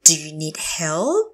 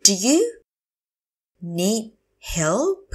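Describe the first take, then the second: First: Said in the usual way. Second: Slow teacher model of "Do you need help"; broken up slowly. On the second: Shown as a demonstration. Teacher repeats phrase word by word.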